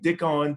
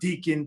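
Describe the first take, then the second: First: The first vowel sounds like 'dick'. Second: The first vowel sounds like 'dee'. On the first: "people were saying Dickon" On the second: "people were saying uh, Deacon"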